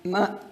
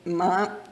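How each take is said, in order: First: The syllable is said with the neutral tone. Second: The syllable is said with the second tone. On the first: It marks a question. "the neutral tone" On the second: It means what. "The second tone"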